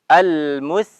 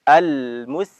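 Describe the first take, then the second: Both takes have the same delivery.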